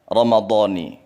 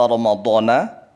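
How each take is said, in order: First: The word ends with an 'i' vowel. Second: The word ends with an 'a' vowel. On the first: The speaker calls it right. "harusnya Ramadhani" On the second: The speaker calls it wrong. "Koreksi lafadz niat puasa Ramadhana"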